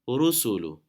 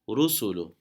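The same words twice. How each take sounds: No difference in how they are said.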